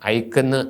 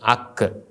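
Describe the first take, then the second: First: The first vowel is the diphthong 'ai'. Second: The first vowel is a plain 'a'. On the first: The speaker calls it wrong. "ഐക്കെന്ന് അല്ല വായിക്കേണ്ടത്" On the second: The speaker calls it right. "അക്ക് എന്നാണ്"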